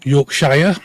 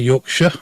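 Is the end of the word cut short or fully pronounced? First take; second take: fully pronounced; cut short. First: The final syllable is fully pronounced. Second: The final syllable is cut short. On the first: This is how people from elsewhere say it. "as uh, the outsiders pronounce it" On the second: This is how local people say it. "us in Yorkshire say Yorkshire. Uh, we missed the end bit"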